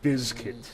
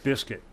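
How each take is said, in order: First: The middle consonant is a buzzing z sound. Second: The middle consonant is a hissing s sound. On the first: The speaker calls it right. "It would be B I Z K I T, which would be Bizkit" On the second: The speaker calls it wrong. "not Biscuit"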